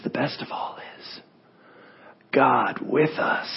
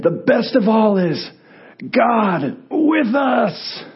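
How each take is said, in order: First: Whispered, then slow and faint; dying whisper. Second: Higher, slow, ringing cry; triumphant proclamation. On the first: Dying preacher whispers final sermon to his friends, slow whisper. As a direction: breathe it out slowly, nearly gone. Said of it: "he starts whispering". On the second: Dying preacher raises fist to comfort his friends, triumphant shout. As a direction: cry it out like a victory salute. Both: Acted.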